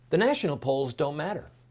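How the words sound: It is said in a calm, even manner.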